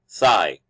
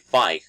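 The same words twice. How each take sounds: First: It starts with a voiceless th sound. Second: It starts with an f sound, Cockney style.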